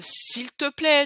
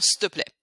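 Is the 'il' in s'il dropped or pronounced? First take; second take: pronounced; dropped. First: The 'il' sound is fully pronounced. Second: The 'il' sound is dropped entirely.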